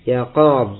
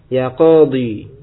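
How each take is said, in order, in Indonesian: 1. Kata ini berakhir mendadak pada konsonan d. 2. Kata ini berakhir dengan vokal panjang ee. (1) "Yunus lebih memilih untuk al-hadaf dibuang" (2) "Khalil lebih memilih untuk menetapkan ya-nya"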